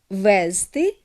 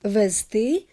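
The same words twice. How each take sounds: First: The stress is on the first syllable. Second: The stress is on the last syllable. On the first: "той давніший наголос" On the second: "мають наголос на суфіксі «ти»"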